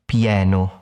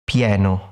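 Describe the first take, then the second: No difference in how they are said.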